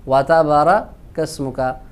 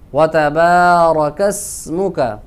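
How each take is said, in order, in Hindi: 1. 'b' के बाद का स्वर छोटा है। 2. 'b' के बाद का स्वर लंबा खींचा जाता है। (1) "बा के बाद जो अलिफ है उसको लंबा नहीं करते" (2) "एक अलिफ के बराबर लंबा करके पढ़ेंगे"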